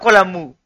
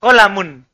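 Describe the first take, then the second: First: "kolamu" ending open on "mu"; wrong ending. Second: "Kolamun" closed with a final n; corrected ending. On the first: Teacher rejecting the pupil's word, "kolamu" with final n dropped. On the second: Teacher correcting the pupil, "Kolamun" with the final n sounded. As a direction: finish "Kolamun" on a clear "mun". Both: Shown as a demonstration. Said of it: "Bukan kolamu".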